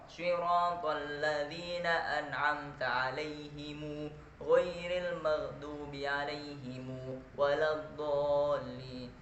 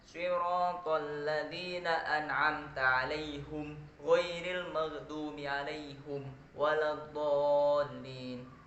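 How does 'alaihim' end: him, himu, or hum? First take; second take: himu; hum. First: The word 'alaihim' ends in himu. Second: The word 'alaihim' ends in hum. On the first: This is the reading joining a vowel to the m. "lafaz alaihimnya menjadi alaihimu" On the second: This is a third reciter's reading. "alaihimnya menjadi alaihum"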